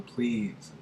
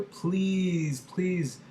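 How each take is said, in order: First: Said in the usual way. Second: High, pleading please, please; strong begging. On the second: Shown as a demonstration. Teacher acting out a strong beg, high pitched. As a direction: beg hard, voice raised. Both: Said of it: "very strong".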